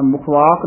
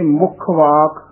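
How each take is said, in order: First: ਮੁਖ ਵਾਕ with a loose single kh; wrong, untightened. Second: ਮੁਖ ਵਾਕ with a held kh, "mukkh-vaak"; slightly tightened. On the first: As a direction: let ਮੁਖ slide lightly into ਵਾਕ. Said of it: "ਨਹੀਂ ਕਹਿਣਾ ਹੈ". (ਮੁਖ ਵਾਕ ਢਿੱਲਾ, ਬਿਨਾਂ ਕੱਸੇ) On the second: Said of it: "ਥੋੜ੍ਹਾ ਜਿਹਾ ਕੱਸ ਕੇ". (ਮੁਖ ਵਾਕ ਥੋੜ੍ਹਾ ਕੱਸ ਕੇ) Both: Shown as a demonstration.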